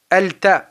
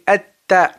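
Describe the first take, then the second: First: The l is pronounced clearly before the t. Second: The l is absorbed and the t is doubled. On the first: The speaker calls it wrong. "on ne dit pas al-ta" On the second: The speaker calls it right. "on dit at-ta"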